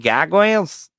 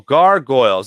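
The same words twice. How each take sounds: First: The R sounds are dropped, with a broad A. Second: The R sounds are pronounced clearly. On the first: Someone else said it. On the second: The speaker says it himself.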